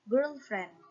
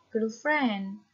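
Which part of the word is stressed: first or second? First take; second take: first; second. First: The stress is on the first syllable. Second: The stress is on the second syllable. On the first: It means a romantic partner. "kita tekan yang girl-nya" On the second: It means a friend who is female. "kita kalau pembacanya stressing di friend"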